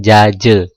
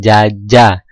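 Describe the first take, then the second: First: The final vowel is pronounced as an e. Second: The final vowel is pronounced as an open a. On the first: "dibaca atau diucapkan jaje" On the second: "Misalnya jaja"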